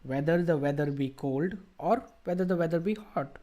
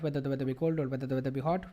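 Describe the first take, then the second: First: It is read steadily with pauses at commas. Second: It is read quickly with a focus on speed. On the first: "Did I take pauses whenever there were commas and stuff?" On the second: "I can just focus on speed"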